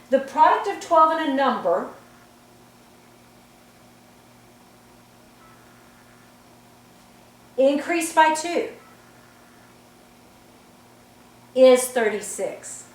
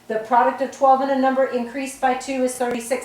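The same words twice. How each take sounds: First: It has a long pause at the comma. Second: It is read straight through without long pauses.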